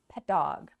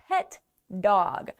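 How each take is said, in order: First: The two words blend like one word. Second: The two words are said separately.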